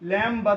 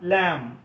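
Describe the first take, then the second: First: A b sound is heard at the end. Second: No b sound is heard at the end. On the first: The speaker calls it wrong. "ലാംബ് എന്ന് പറയാറില്ല" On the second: The speaker calls it right.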